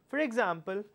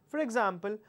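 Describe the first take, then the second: No difference in how they are said.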